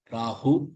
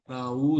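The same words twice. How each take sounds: First: The final hu is breathy from the throat. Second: The final hu is light, not from the throat. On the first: The speaker calls it right. "ஹு தொண்டையிலிருந்து வரணும்" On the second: The speaker calls it wrong. "இல்ல"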